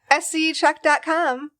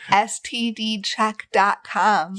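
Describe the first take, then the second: First: It is said fast. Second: It is said slowly.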